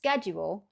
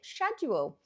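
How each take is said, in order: First: The word begins with an sk sound. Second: The word begins with an sh sound. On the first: "I would pronounce it purely based on the word school. So you've got the same S C H, sk" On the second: "a lot of people in the U K do pronounce it schedule"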